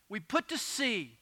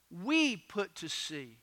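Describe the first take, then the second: First: Said in the usual way. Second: WE drawn out long, then a drop; slow line leaning hard on "We"; stress on WE. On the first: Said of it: "notice how Luke puts it". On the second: Shown as a demonstration. Preacher points out Luke was aboard too, stress on WE. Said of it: "Notice it was not just Paul".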